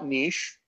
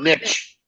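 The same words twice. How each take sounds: First: It is said the Commonwealth way, like 'neesh'. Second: It is said the American way, like 'nitch'.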